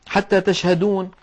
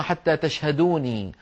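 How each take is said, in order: First: Said in the usual way. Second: تشهدوني slower, ending in a long ee; slow تشهدوني with final -nii; original form with ya. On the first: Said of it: "هذه أصلها". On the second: Shown as a demonstration. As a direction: sound the dropped ya at the end of تشهدوني. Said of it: "في آخرها ياء متكلم محذوفة".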